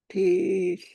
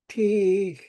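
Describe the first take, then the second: The two takes are said the same way.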